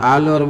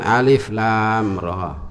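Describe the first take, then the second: First: The letters are blended into one short word. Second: Each letter is said separately by its name. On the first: The speaker calls it wrong. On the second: The speaker calls it right.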